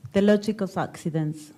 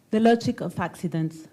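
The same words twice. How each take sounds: The two takes are said the same way.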